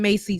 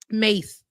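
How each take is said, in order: First: The name is said with two syllables. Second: The name is said with one syllable. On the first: The speaker calls it wrong. "I was saying it wrong. It ain't Macy" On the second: The speaker calls it right. "Mace like the spray"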